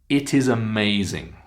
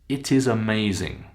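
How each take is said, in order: Both takes have the same delivery.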